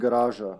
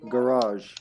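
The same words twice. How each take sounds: First: It is said with a Serbian pronunciation. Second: It is said with a British pronunciation. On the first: "Like in Serbia, we would say garage" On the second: "in Britain, they would say garage"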